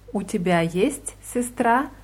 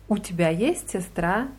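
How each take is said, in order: First: The pitch falls like a plain statement. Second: The pitch rises like a yes-no question. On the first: You have a sister. "bedeutet als Feststellung" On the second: Do you have a sister? "das wäre eine Frage"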